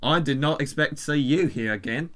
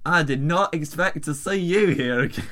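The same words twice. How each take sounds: First: Rough attempt at Australian; Australian accent. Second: Put-on botched South African accent; terrible South African accent. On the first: Giving up on South African for the email, Australian accent. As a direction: switch to an amateur Australian accent. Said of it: "I'm just gonna do Australian". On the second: Reading the email as instructed, terrible South African accent. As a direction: try South African and miss. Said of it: "This is terrible South African accent".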